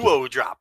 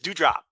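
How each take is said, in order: First: The first part has two syllables, like duo. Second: The first part has one syllable, like dew. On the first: The speaker calls it wrong. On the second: The speaker calls it right. "just do drop"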